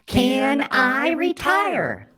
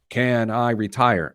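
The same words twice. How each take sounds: First: It is said in a mocking put-on voice. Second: It is said in his normal voice.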